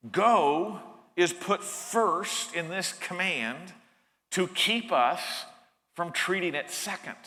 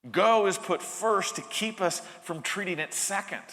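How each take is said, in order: First: Slow deliberate. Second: Said in the usual way. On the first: Shown as a demonstration. Preacher drilling the point into listeners, slow and deliberate.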